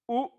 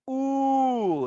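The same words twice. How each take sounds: First: The vowel is held for one short beat. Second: The vowel is held for three beats.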